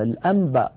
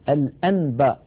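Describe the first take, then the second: First: The n before b is pronounced as m. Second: The n before b is pronounced clearly as n. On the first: The speaker calls it right. "ويقول الناس" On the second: The speaker calls it wrong. "ولا يقول الواحد"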